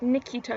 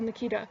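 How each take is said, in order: First: The first vowel is a clear 'ee' sound. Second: The first vowel is reduced, sounding like 'a'. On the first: This is how the owner of the name says it carefully. The speaker calls it right. "she's like Nikita" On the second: This is how people usually say the name. The speaker calls it wrong. "the typical Nikita, because apparently that sounds like Nakita"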